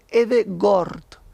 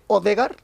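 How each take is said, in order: First: The name begins with an 'e' sound. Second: The name begins with an 'o' sound. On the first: The speaker calls it right. "Se dice Edegord" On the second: The speaker calls it wrong. "no se dice Odegaard"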